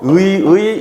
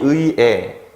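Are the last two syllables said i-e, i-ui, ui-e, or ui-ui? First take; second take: ui-ui; ui-e. First: Both syllables are said with the vowel ui. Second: The first syllable has ui, the second has e. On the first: "의라고 발음해도 되고" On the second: "에라고 발음해도 돼요"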